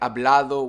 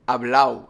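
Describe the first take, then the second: First: The d before the final o is pronounced. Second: The d before the final o is dropped. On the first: "Instead of saying hablado" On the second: "we say hablao"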